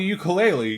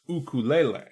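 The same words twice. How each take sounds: First: It is said the common English way. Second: It is said the native Hawaiian way. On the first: The speaker calls it wrong. "you're technically pronouncing it wrong" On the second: The speaker calls it right. "actually meant to be pronounced ukulele, which is Native Hawaiian"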